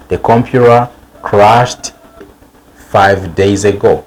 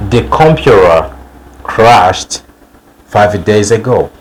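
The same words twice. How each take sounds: The two takes are said the same way.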